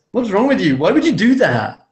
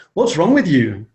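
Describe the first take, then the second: First: Higher, louder mock snap of blame; mock accusing snap. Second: Accusing tone. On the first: Imitating how not to scold his wife, a higher, louder accusing snap. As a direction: throw the blame at your wife with attitude. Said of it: "with that attitude and that face". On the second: Retold or imitated. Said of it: "with that face".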